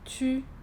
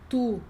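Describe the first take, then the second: First: The vowel is rounded and pushed forward toward i. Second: The vowel is rounded and pulled back like u. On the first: The speaker calls it right. "É um U bem, bem chique, bem francês" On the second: The speaker calls it wrong. "eu não tô falando ru, tu, lune"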